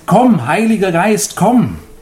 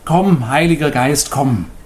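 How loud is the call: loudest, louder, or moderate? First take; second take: louder; moderate. First: The call is spoken somewhat louder. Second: The call is spoken at moderate volume.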